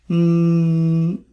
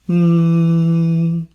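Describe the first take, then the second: The two takes are said the same way.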